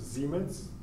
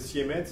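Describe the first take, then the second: First: It is pronounced the German way. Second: It is pronounced the French way. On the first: "en allemand ça se prononce" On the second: "On dit souvent en français"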